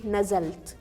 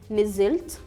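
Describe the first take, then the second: First: It is said with a vowels, Alexandria style. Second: It is said with i vowels, Cairo style. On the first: "In Alexandria, they say nazalt" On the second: "in Cairo we say nizilt"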